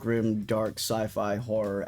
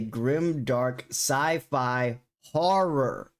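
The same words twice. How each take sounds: First: It is said at normal volume. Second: It is said more loudly.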